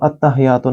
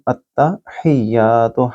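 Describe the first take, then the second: First: The h is plain and the ya is short. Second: The h is from the throat, ya long. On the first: The speaker calls it wrong. "इसको अत्तहियातु नहीं बोलेंगे" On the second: The speaker calls it right. "हा को गले से बोलें और या को लंबा करें"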